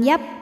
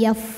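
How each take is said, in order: First: The final consonant stops without audible air. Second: The final consonant releases audible breathy air. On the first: The speaker calls it wrong. "bukan yap" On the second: The speaker calls it right. "harus keluar angin"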